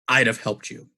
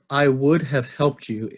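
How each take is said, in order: First: 'I would have' is reduced to 'I'da'. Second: Every word is said fully and separately. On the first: "The second pattern, which you'll probably notice is my preferred pattern" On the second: "I read that the way a computer or a robot would read"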